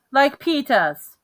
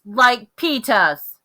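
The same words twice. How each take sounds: First: Put-on slow, higher little-kid voice; lightly voiced little boy asking; toddler voice. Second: Put-on loud, very slow, drawn-out child's demand; hollered demand. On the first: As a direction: say it like a small child wanting his brother's shoes. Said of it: "he said". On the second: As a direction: holler it slowly, insisting. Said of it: "Fudge hollered".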